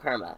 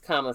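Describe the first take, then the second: First: The first syllable has an r sound. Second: The first syllable has no r sound. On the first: The speaker calls it wrong. "It's not Karma" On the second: The speaker calls it right. "It's Kama Sutra"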